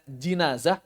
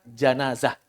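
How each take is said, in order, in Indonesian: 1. Vokal pertama terdengar seperti 'i'. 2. Vokal pertama terdengar seperti 'a'. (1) "Boleh dibaca jinazah" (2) "boleh dibaca janazah"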